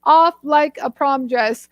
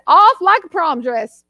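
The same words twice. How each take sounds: First: Said in the usual way. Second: Playful Southern delivery of the saying; Southern accent. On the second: Shown as a demonstration. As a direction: say it with a Southern twang.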